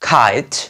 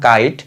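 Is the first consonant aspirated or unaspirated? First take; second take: aspirated; unaspirated. First: The first k has a strong puff of air. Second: The first k has no puff of air. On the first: The speaker calls it right. "Rightly pronounce করতেছি যে খেই" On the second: The speaker calls it wrong. "আমরা আগে বলতাম"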